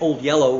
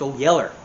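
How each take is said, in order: First: The last word ends in an 'oh' sound. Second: The last word ends in an 'er' sound. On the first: The speaker calls it wrong. "people say old yellow" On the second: The speaker calls it right. "Yeller is the proper way to say it"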